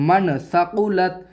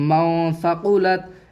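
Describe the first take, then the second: First: The n sound is pronounced clearly. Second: The n sound is hidden in the nose. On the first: The speaker calls it wrong. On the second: The speaker calls it right.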